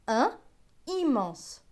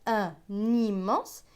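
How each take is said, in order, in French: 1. Les deux mots sont prononcés séparément, sans liaison. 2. Le son n se lie au mot suivant. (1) "et non pas" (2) "on dit bien"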